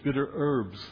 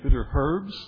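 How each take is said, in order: First: The h at the start of herbs is silent. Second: The h at the start of herbs is pronounced. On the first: "Americans don't say the H" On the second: "as they say in UK"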